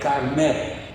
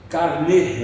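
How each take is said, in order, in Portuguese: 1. A vogal final é um e aberto. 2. A vogal final é um e fechado. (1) "eu não falaria carné" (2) "E com um circunflexo em cima, né? ... seria como na palavra carnê"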